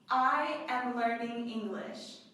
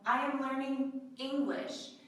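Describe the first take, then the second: First: The stress falls on the word I. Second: The stress falls on the word English. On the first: The speaker, not someone else, is the learner. "The emphasis is on I" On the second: It specifies which language is being learned. "This is to specify"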